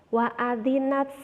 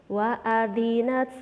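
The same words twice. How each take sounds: Both takes have the same delivery.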